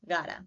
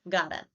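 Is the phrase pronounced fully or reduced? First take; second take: reduced; reduced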